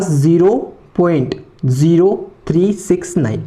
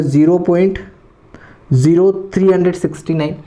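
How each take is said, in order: First: "zero, three, six, nine" as separate digits, paused; digit-by-digit reading. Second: "three hundred sixty nine" as one whole number after the point; wrong reading. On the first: Teacher showing the correct way, digit by digit. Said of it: "इसको one one पढ़ना है". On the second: Teacher showing students a mistake, wrong reading. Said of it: "ये बिल्कुल गलत तरीका है". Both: Shown as a demonstration.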